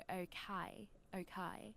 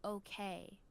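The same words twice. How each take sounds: First: "Okay" in a British accent, second syllable like "kye"; British accent, "Okay" ending on a wide "kye". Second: Said in the usual way. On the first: Shown as a demonstration. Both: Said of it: "but you guys go".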